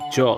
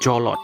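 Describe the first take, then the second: First: It is said as one syllable, jolt. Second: It is said as two syllables, jo-lot. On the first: The speaker calls it right. "dibacanya Jolt" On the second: The speaker calls it wrong. "Jangan dibaca Jolot"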